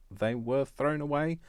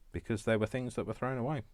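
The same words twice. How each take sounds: First: Thrown away said higher, slow and loud; emphatic repeat. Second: Said in the usual way. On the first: Shown as a demonstration. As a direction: lean hard into thrown away, stretching it out.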